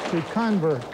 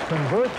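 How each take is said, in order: First: To convert with the weight on the second syllable, con-VERT; verb stress, conVERT. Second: Convert with the weight on the first syllable, CON-vert; noun stress, CONvert. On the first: Quizmaster showing the verb stress to the team, con-VERT. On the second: Quizmaster showing the noun stress to the team, CON-vert. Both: Shown as a demonstration. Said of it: "you usually change the accent on a word".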